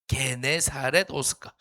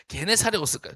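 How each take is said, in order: First: 게네사렛 spelled out syllable by syllable, very slow; slow careful pronunciation. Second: Said in the usual way. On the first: Shown as a demonstration. Pastor teaching youth group to say the place name, slow and deliberate. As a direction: say 게네사렛 호숫가 slowly so the kids can repeat it. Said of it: "저를 따라해줍니다. 좀 어려울 수 있습니다. 발음이". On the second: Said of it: "저를 따라해줍니다".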